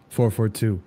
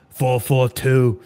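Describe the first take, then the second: First: Said in the usual way. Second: "Four four two" drawn out slowly, each word weighed; slow emphatic. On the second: Shown as a demonstration. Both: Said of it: "It's the only formation you need".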